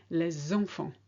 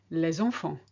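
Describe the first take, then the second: No difference in how they are said.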